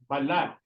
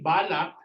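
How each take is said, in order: First: The stress is on the second syllable. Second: The stress is on the first syllable. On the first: It means skin. "Remember the stressing. It's balat. La" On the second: It means birthmark. "when you say balak, it's birthmark"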